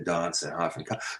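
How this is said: Said with the southern English vowel. This is the newer pronunciation that developed in England. "That changed in England in the eighteenth century to"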